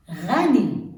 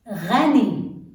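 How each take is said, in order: First: Ghani repeated with a French R gh; Arabic pronunciation. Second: Ghani with a French R gh; Arabic pronunciation. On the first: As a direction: Ghani said again, gargled gh. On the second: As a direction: Ghani said loud, gargled gh. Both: Shown as a demonstration. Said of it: "like the French R".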